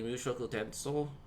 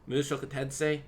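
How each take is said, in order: First: The second word ends with a 'so' sound. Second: The second word ends with a 'say' sound. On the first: The speaker calls it right. "when it's actually" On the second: The speaker calls it wrong. "I mispronounced the, the second half of the title as"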